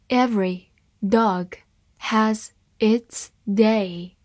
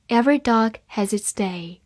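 First: Slow, word by word, each word clear; slow reading. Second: Said in the usual way. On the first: Shown as a demonstration. Teacher reads the proverb slowly to students. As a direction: read it slowly for learners. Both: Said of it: "好，慢读一遍。".

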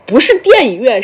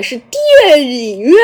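First: Said in the usual way. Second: 电影院 stretched out, syllable by syllable; drawn-out vowels. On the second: Retold or imitated. Guo Da correcting listeners, long drawn-out 电影院. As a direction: correct them by lengthening every sound in 电影院. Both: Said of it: "拉长音还是电影院呀".

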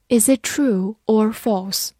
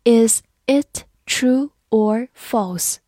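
First: Said in the usual way. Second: Slow, deliberate read; slow classroom model question. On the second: Shown as a demonstration. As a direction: draw each word out for learners. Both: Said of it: "好，慢慢来读。".

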